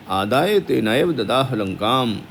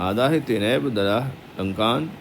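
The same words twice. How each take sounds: First: लंकाम said with a final m sound; wrong ending. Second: लंकान said with a final n sound; corrected ending. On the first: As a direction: end लंकाम on m, not n. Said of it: "अब ये देखो बिंदी आई है ना". (लंकाम का गलत उच्चारण) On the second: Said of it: "ना को कर दो". (लंकान का सही उच्चारण) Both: Shown as a demonstration.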